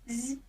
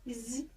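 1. Звук «з» м'який, пом'якшений. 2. Звук «з» м'який, пом'якшений.

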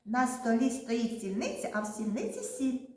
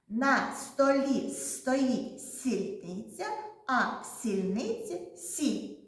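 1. Речення вимовляється помірно. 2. Речення вимовляється повільно. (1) "Давайте швидше скажемо" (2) "спочатку повільно скажемо"

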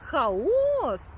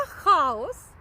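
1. Наголос падає на останній склад. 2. Наголос падає на перший склад. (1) "наголос на останній склад – це безлад" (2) "наголос на перший склад на «а» – це термін, який вживається в міфології"

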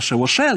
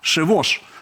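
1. Слово закінчується на додатковий голосний звук. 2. Слово закінчується на приголосний звук. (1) "правильно говорити не шевоше, як воно пишеться в нашій транскрипції" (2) "а шевош"

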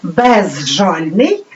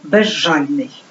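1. Префікс закінчується на чіткий звук z. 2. Префікс закінчується на звук zh. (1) "Пишемо" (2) "вимовляємо"

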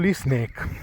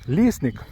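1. Наголос на другому складі. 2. Наголос на першому складі. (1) "Тут наголос йде на ник" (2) "наголос йде на ліс"

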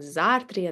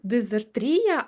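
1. Наголос на другому складі. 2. Наголос на третьому складі. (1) "наголос буде падати саме на другий склад" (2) "так як ми звикли робити наголос на третьому складі"

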